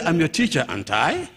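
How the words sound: It sounds like it asks for a real answer.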